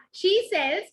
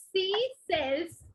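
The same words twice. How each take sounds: First: "she sells" with a clear sh at the start; corrected "she". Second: "She sells" with a plain s, like "see sells". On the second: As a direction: slip "She" into "see", spaced out. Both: Real, not acted. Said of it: "it's she".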